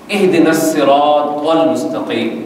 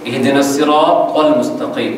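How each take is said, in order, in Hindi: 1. अरबी ध्वनियाँ तजवीद के सावधान उच्चारण से बोली गई हैं। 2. अरबी ध्वनियाँ तजवीद के सावधान उच्चारण से बोली गई हैं।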